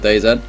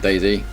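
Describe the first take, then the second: First: The name is said as two parts, Day Z. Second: The name is said as one word, Daisy.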